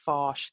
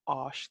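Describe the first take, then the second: First: The word begins with an f sound. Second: The word begins without an f sound. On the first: The speaker calls it wrong. "you don't have a, a foshk sound" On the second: The speaker calls it right. "you have oshk sound"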